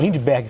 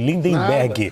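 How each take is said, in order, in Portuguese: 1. O nome não tem uma sílaba extra no meio. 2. O nome tem uma sílaba extra no meio.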